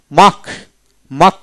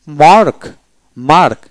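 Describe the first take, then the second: First: মাক with long A and silent R; British dropped R. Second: মার্ক with the R sounded before K; American R. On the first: Teacher shows British form to learners, মাক without R. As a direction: drop the R in মাক. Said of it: "ব্রিটিশে". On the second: Teacher shows American form to learners, R voiced in মার্ক. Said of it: "আমেরিকানে রেপ উচ্চারিত". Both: Shown as a demonstration.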